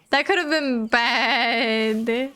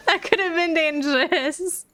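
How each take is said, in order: First: Said in the usual way. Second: Higher, excited, stressing that; excited, laughing relief. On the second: Real, not acted.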